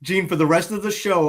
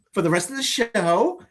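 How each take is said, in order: First: Said in the usual way. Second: "show" ends on a rising question tune; uptalk. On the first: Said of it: "talk in that up talk way". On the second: Shown as a demonstration. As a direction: lift the end of "For the rest of the show" like a question. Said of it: "we're gonna talk like that".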